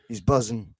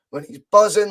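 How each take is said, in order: First: Buzzing said lower and softer, completely flat; flat low echo showing Ange's same tone; deadpan. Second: Said in the usual way. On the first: Shown as a demonstration. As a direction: drop it low and deadpan like nothing happened. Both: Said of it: "everything in the same tone".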